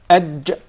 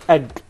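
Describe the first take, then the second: First: The consonant is a soft j sound. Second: The consonant is a hard g sound. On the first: The speaker calls it right. "It is aj" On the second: The speaker calls it wrong. "Not ag. There is no gim in Arabic"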